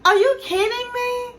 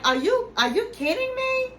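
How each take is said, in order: First: Incredulous Gino. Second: High mock-incredulous imitation of Gino. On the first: Retold or imitated. Gino stunned at being told not to come, hammed-up disbelief. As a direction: ham up his stunned face in the voice. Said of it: "Gino makes those faces". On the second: Gino balks at being uninvited, mock disbelief. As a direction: squeak it out in disbelief, imitating him. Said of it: "And he was like".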